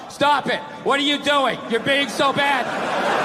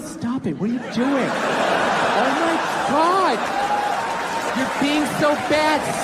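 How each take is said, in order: First: It is read in a flat, lifeless way. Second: It is said in a playful, teasing way.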